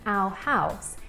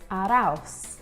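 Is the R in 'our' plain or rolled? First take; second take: plain; rolled. First: The R in 'our' is not rolled. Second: The R in 'our' is rolled into 'house'. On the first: "instead of saying our house" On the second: "here he says our house"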